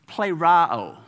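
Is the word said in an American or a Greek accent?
American. It is said with an American accent. "if you've got a U.S. accent, ... you would say it like this"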